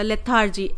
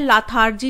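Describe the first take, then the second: First: The first syllable is said with an 'e' vowel. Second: The first syllable is said with an 'a' vowel. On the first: The speaker calls it right. "L ई आता है ए की जगह" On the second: The speaker calls it wrong. "लाथार्जी नहीं होता"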